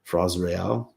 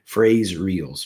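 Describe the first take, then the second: First: It is attempted with French sounds, like 'fray ray-el'. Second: It is read with English sounds, like 'phrase reals'. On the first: "but Fres Real" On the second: "in English, you'd say phrase reals"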